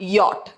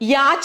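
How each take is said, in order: First: It is said with an 'o' vowel and 't' ending. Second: It is said with an 'a' vowel and 'ch' ending. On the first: The speaker calls it right. "യോട്ട് ആണ്" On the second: The speaker calls it wrong. "യാച്ച് എന്നൊക്കെയാണ് പലപ്പോഴും ആൾക്കാർ പറഞ്ഞു കേൾക്കാറുള്ളത്. പക്ഷേ ഇത് യാച്ച് അല്ല"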